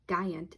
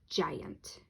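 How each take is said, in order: First: The word begins with a hard G sound. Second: The word begins with a J sound. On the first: The speaker calls it wrong. "instead of saying G, it doesn't say giant" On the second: The speaker calls it right. "it says giant"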